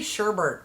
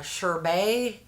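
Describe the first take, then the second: First: The second syllable has an extra R sound. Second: The second syllable has no R sound. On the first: The speaker calls it wrong. "I always say Sherbert" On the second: The speaker calls it right. "there is no second R"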